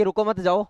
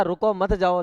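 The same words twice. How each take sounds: First: "रुको मत जाओ" run together, no break after "रुको"; misread phrasing. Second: "रुको", short break, then "मत जाओ"; pause after रुको. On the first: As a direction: read as don't stop, go: "रुको मत जाओ". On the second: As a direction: split it as stop, don't go: "रुको, मत जाओ". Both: Shown as a demonstration. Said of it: "लेकिन उसने पढ़ लिया".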